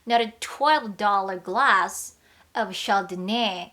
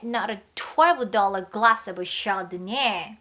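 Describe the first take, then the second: First: The phrase is said with slight breaks. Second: The phrase is said smoothly without breaks.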